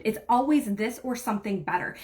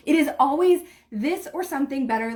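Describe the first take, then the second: First: Said in the usual way. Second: It is always said higher and louder, with weight on always; emphatic affirmation. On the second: Shown as a demonstration. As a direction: declare always like a promise. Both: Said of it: "say it out loud".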